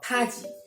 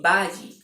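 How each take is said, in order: First: The first consonant sounds like a strong p. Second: The first consonant sounds like a voiced b. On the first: "or paji" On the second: "it's not really baji"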